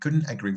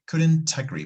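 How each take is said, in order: First: The T in couldn't is weakened and reduced. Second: The T in couldn't is strongly pronounced. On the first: "sometimes I think it's very necessary to to just reduce that a little bit" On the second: "because we have the T. The T is very strong"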